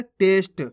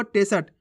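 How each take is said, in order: First: टेस्ट as one beat, "test"; सही उच्चारण. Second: टेसट run together as "te-sat"; गलत उच्चारण. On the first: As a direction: say टेस्ट with स joined straight to ट. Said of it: "जबकि अपन पढ़ कैसे रहे". (टेस्ट में आधा स, ट से जुड़ा) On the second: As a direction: misread टेसट with a full स. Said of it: "ये क्या होगा". (टेसट में स पूरा बोलकर) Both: Shown as a demonstration.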